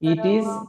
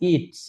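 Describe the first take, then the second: First: It is said as two separate words. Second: It is contracted into one short syllable. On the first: "ইট ইজ কি হবে?" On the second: "short ফর্মটা"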